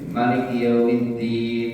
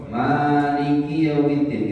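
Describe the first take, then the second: First: The first vowel of Maliki is short. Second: The first vowel of Maliki is long. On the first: It means king. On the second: It means the one who rules over.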